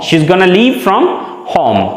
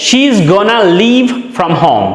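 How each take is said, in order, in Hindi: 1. 'Going to' को एक शब्द में छोटा करके 'gonna' बोला जाता है। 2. 'Going to' को एक शब्द में छोटा करके 'gonna' बोला जाता है।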